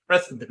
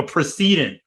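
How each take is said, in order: First: "Precedent" stressed on the first syllable, PRESS-ih-dent; standard pronunciation. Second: "precedent" stressed on the second syllable, pruh-SEE-dent; alternative pronunciation. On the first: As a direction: bring "Precedent" back to short PRESS at the front. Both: Shown as a demonstration. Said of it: "Or like a precedent".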